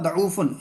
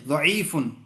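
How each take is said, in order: First: The second vowel is an 'oo' sound. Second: The second vowel is an 'ee' sound. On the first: The speaker calls it wrong. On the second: The speaker calls it right.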